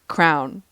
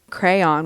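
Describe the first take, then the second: First: It is one syllable rhyming with town. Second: It is said with two syllables, cray-on. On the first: "or crown" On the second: "We say crayon with two syllables"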